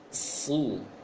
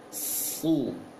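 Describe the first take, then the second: The two takes are said the same way.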